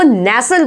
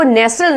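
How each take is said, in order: First: नेसल with silent t, "nessal"; correct pronunciation. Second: नेस्टल with the t sounded; wrong pronunciation. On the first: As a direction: drop the t in नेसल. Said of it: "इसको नेसल बोला जाएगा". (नेसल में "टी" silent) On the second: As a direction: say नेस्टल as "nes-tal". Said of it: "इसको नेस्टल नहीं". (नेस्टल में "ट" बोलकर) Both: Shown as a demonstration.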